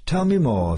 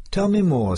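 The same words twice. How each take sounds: First: A lightly voiced headmaster, a little higher, still keen; eager headmaster, repeated. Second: A lightly voiced headmaster, pitched higher and keen; eager headmaster. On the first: Headmaster asking the sergeant again, coaxing. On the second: Headmaster pressing the sergeant for more, eager. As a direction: lean in, hungry for the gossip. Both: A narrator's reading.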